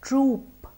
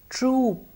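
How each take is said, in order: No difference in how they are said.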